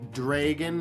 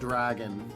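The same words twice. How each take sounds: First: The first vowel is said as a hard vowel. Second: The first vowel is said as a soft vowel. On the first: The speaker calls it right. "the A in dragons is a hard vowel" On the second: The speaker calls it wrong. "a difference between a hard vowel and a soft vowel"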